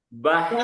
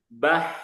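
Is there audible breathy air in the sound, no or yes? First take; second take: yes; yes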